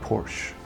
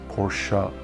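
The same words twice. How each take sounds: First: Porsche is pronounced the English way. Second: Porsche is pronounced the German way. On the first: The speaker calls it wrong. "you say it in a different way" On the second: The speaker calls it right. "religiously call Porsche Porsche"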